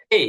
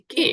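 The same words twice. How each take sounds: First: Lightly puffed k in "কে", then a short i tail; correct K, "কেই". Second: "কে" with no puff and no glide; mistaken K, "কে". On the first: Teacher corrects the letter, "কে" with light aspiration and i glide. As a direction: say "কে" between ক and খ, gliding to i. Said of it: "হালকা ক এবং খ এর মাঝামাঝি". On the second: Teacher shows the wrong letter name, "কে" with a flat Bengali vowel. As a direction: say "কে" with plain k and pure e. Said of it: "এটা কে না". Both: Shown as a demonstration.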